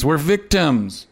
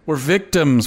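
First: Slow mock self-pity. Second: Mock self-pity. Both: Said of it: "and say".

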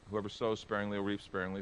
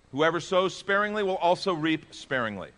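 First: Said in the usual way. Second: High, loud, slow proclamation; proclaimed scripture. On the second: Acted. Pastor proclaiming the verse to the church, loud and slow. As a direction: ring out each word of the verse.

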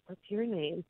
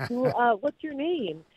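First: Hushed question, very quiet; whispering to him in return; soft whisper. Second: Said in the usual way. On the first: Retold or imitated. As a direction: ask it in a secret hush. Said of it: "I whispered in his ear my name".

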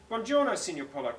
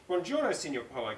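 First: Buongiorno, Signor Polo, light Italian lilt, a bit higher; Italian greeting. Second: Buongiorno, Signor Polo with a light Italian lilt; Italian greeting. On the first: Second read of Federica greeting Mister Chicken, light Italian accent. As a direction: call Buongiorno, Signor Polo like a Roman guide. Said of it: "called, called Federica". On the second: Federica greets Mister Chicken, light Italian accent. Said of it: "called Federica". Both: Acted.

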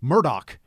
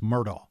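First: Murdoch with a hard final K; original pronunciation. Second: Murdaugh as "Mur-daw", no final K; Southern local pronunciation. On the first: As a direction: say Murdoch as "MUR-dock". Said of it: "original, uh, pronunciation of that name". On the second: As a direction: end Murdaugh on an open Southern vowel. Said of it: "his name is pronounced Murdaugh". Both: Shown as a demonstration.

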